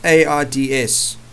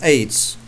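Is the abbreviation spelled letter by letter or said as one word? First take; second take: letter by letter; one word. First: Each letter is spoken separately. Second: It is spoken as a single word. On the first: The speaker calls it wrong. "I'm not going to say" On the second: The speaker calls it right. "I say the word"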